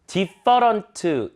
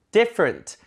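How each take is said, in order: First: Different slowly as "디퍼런트", every vowel full; Korean-style reading. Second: Different as "DIF-rnt"; weakened back part. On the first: Teacher showing what to avoid, different with full vowels. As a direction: spell out different in Korean syllables. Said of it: "가 아니라". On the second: Teacher showing the fix, different with weak back part. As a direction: stress the front of different, reduce the rest. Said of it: "뒤에 부분을 약화시켜야겠죠". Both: Shown as a demonstration.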